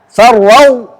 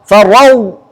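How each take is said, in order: The two takes are said the same way.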